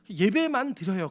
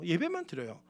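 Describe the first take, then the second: First: 예배만 said slowly with weight; stress on 예배만. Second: 예배만 드려요 said softly with a falling end; quiet repeat. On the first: Pastor stressing 예배만 to the congregation, slow and firm. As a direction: lean into 예배만, drawn out and firm. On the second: Pastor softly repeating 예배만 to the congregation. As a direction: let 예배만 drop soft and settled. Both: Shown as a demonstration.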